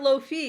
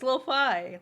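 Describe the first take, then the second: First: The second syllable rhymes with see. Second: The second syllable rhymes with sky. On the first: The speaker calls it wrong. "It's not low fee" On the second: The speaker calls it right. "it's lo fi"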